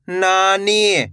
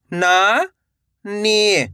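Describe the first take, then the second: First: Said in the usual way. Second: "नानी" split into two long syllables. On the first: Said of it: "तो मिलके बन जाएगा". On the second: Shown as a demonstration. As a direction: draw out ना, pause, then नी in "नानी". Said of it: "एक एक अक्षर का उच्चारण". ("नानी" को तोड़कर, ना... नी)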